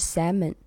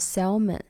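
First: The L sound in the word is silent. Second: The L sound in the word is pronounced. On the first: The speaker calls it right. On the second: The speaker calls it wrong.

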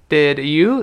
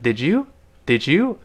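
First: The d and y stay separate sounds. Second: The d and y merge into a j sound.

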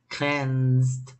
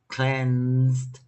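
The two takes are said the same way.

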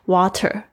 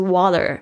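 First: The t is crisp and the r is dropped. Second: The t is soft, close to a d. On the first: "在英式发音的时候呢，这个t 的声音会听起来比较脆" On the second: "美式发音，它听起来比较软"

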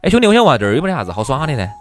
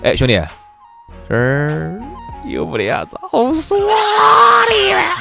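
First: It is asked in a normal, neutral tone. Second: It is asked in a strongly changed, expressive tone.

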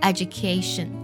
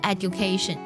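First: The middle consonant is a j sound. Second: The middle consonant is a plain d sound. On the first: The speaker calls it right. "它读作education 啊，它读作g 的音" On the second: The speaker calls it wrong. "好多同学见到d 的时候会读作的音啊，读作education"

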